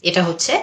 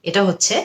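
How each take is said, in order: The two takes are said the same way.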